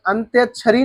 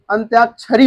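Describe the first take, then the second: First: अंत्यक्षरी with a short a after the ty; wrong pronunciation. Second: अंत्याक्षरी with a long aa after the ty; correct pronunciation. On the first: Teacher shows students the faulty word, अंत्यक्षरी with short middle a. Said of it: "नहीं होता है". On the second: Teacher corrects the word for students, अंत्याक्षरी with long middle aa. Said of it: "होता है". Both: Shown as a demonstration.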